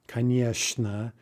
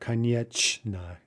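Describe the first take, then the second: First: The middle consonant sounds like sh. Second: The middle consonant sounds like ch. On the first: The speaker calls it right. "ch in certain positions ... is pronounced like sh" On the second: The speaker calls it wrong. "instead of"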